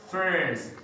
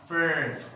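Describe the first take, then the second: The two takes are said the same way.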